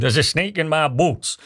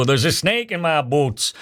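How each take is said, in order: First: Put-on cowboy line slipping into a South London accent; slowed, failed cowboy accent that sounds like South London; South London cowboy attempt. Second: A clumsy, slowed Texan cowboy drawl; mock Woody doll voice, badly done; bad cowboy accent. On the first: Host retrying the doll's catchphrase in a South London-tinged cowboy accent. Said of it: "It sounded like I'm from South Bank". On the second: Host imitating a pull-string cowboy doll, in a bad cowboy accent. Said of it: "that sounded like the worst cowboy accent".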